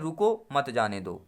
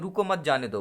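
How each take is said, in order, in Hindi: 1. पहले शब्द के बाद विराम है। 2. दूसरे शब्द के बाद विराम है। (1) "अब रुको में पहले लगा दें" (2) "रुको मत के बाद अल्प विराम लगा दें"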